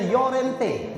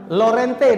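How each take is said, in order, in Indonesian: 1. Nama itu diawali bunyi Y. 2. Nama itu diawali bunyi L.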